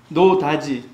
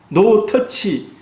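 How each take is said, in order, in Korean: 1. 두 번째 단어는 daji로 발음돼요. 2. 두 번째 단어는 touch로 발음돼요. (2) "이 발음을 노 터치라 해야 되는데"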